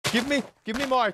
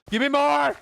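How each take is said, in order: First: Said in the usual way. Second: High, loud demand; mock demanding shout. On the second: Streamer pressing chat for things to blame, shouted. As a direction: yell for more, playfully insistent.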